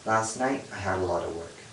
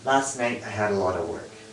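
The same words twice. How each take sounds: Both takes have the same delivery.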